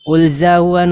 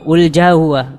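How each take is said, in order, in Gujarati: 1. વચ્ચેનો વ્યંજન 'z' જેવો અવાજ છે. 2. વચ્ચેનો વ્યંજન શ્વાસયુક્ત 'jh' અવાજ છે.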